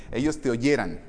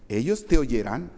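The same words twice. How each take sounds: First: Oyeran stressed on YE, falling after it; corrected accent. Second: Oyerán stressed on the final syllable -rán; oyerán with an accented last A; misplaced accent. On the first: Shown as a demonstration. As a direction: say o-YE-ran, leaving the final -ran of oyeran unstressed. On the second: Real, not acted. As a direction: put the stress at the end of oyerán. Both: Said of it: "Estaba poniendo un acento donde no había".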